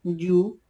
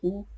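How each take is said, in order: First: "You" with a y glide before oo, higher and louder; "You", yoo, raised in pitch and volume; English letter U. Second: U said as a pure "oo" vowel; the letter "U" pronounced the Quechua way, oo. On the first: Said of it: "you pronounce in English". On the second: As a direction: say "U" as oo, with no y sound before it. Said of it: "you pronounce in Quechua". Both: Shown as a demonstration.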